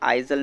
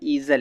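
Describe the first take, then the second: First: The name begins with an 'eye' sound. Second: The name begins with an 'ee' sound. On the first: The speaker calls it wrong. "ये नाम आइज़ल नहीं" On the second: The speaker calls it right. "बल्कि ईज़ल है"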